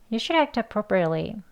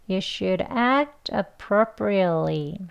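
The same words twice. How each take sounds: First: The sentence is spoken at a fast pace. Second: The sentence is spoken at a slow pace. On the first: "빨리 두 번 하겠습니다" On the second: "천천히 두 번 할게요"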